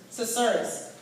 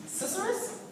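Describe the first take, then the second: First: Said in the usual way. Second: "Susurrus" as a question, high and quiet; tentative high lift on "Susurrus". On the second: Real, not acted. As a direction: say "Susurrus" softly with a steep rising tune. Unsure try at a strange word.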